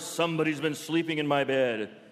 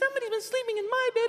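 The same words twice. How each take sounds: First: It is said in a roaring bear voice. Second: It is said in a high squeaky voice.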